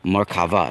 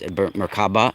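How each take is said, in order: First: The middle consonant is a V sound. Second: The middle consonant is a B sound. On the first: The speaker calls it right. "It's actually Merkava" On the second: The speaker calls it wrong. "you guys like to say it with a B"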